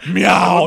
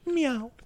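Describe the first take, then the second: First: It is a fierce, tiger-like meow. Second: It is a casual, offhand meow.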